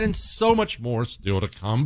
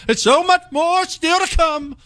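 First: Said in the usual way. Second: High, booming mock radio announcer; pompous announcer voice. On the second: Shown as a demonstration. Host hamming up the ad lead-in in an announcer voice. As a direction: oversell it like a cheesy promo. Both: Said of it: "how about we just speak like normal people?".

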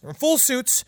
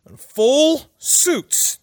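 First: Said in the usual way. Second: "full suits" drawn out very slowly, high; emphatic "full suits". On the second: Real, not acted. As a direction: stretch "full" and "suits" far apart. Repeats the detail for emphasis.

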